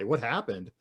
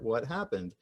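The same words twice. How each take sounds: First: It sounds accusing, as if blaming someone. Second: It sounds neutral, as a plain question.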